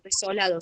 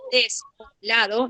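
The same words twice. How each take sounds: First: Said in the usual way. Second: "desolado" split apart as des, o, lado; broken-word demo. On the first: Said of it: "no estoy diciendo desolado". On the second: Shown as a demonstration. Teacher shows how sense is lost, "desolado" broken as des-o-lado. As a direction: pause inside "desolado" after des and o. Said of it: "porque si digo desolado".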